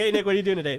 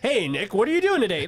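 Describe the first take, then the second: First: It is said with moderate, relaxed everyday energy. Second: It is said with loud, exaggerated high energy. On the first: It is an everyday greeting to a friend. "that's your six out of ten energy" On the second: It is an on-camera presenter greeting. "you wouldn't say hi to your friends that way"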